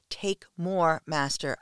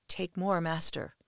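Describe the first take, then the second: First: Mild scream. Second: Moaning. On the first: A submissive crying out to her master, half-screamed. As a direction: cry out "Take more" with a mild, restrained scream. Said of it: "I scream". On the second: A submissive pleading with her master, moaning. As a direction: moan it, pleading and breathless. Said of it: "I moan". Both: Acted.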